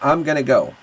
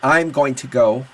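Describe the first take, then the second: First: The words blend into a reduced 'gonna' form. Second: Each word is said fully and separately. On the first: "here, we're gonna say" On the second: "Very rarely do we say"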